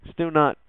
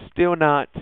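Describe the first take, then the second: No difference in how they are said.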